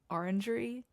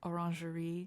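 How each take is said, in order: First: The word is pronounced the English way. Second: The word is pronounced the French way. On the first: "I say orangery" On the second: "in French it's like orangerie"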